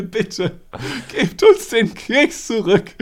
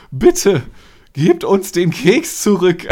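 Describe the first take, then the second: First: High, slow, trembling plea; tragic heroine sorrow. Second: Shaky, earnest plea, slow; trembling plea. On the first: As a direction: beg tragically, voice quivering. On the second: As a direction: plead with a trembling voice. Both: Retold or imitated. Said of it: "so richtig ernst mit zitternder Stimme".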